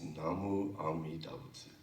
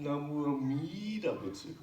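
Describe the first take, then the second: First: Said in the usual way. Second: "Namu Amida Butsu" with MI pushed up high; wrong-way demo, "Amida" peaking on MI; stress on mi. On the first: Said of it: "It's just, just". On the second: Shown as a demonstration. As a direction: mimic the mistake, stretching "mi" in "Amida". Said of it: "Now you're saying".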